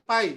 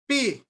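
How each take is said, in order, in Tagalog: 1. Ang patinig ay tunog na 'eye'. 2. Ang patinig ay tunog na 'ay'. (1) "O sa math, tawag dyan, pi" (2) "Pero sa Greek, P. As in pay"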